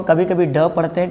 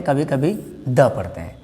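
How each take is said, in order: First: ड with the tongue curled back; retroflex 'd'. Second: द with the tongue on the teeth; dental 'd'. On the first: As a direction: model ड as a hard retroflex 'd'. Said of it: "इसको डी को हम कभी कभी ड पढ़ते हैं". (ड का मूर्धन्य उच्चारण) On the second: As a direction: model द as a soft dental 'd'. (द का दंत्य उच्चारण) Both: Shown as a demonstration.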